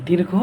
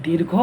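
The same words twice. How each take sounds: No difference in how they are said.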